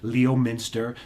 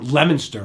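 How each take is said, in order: First: It is pronounced the way outsiders say it. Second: It is pronounced the way locals say it. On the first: The speaker calls it wrong. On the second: The speaker calls it right.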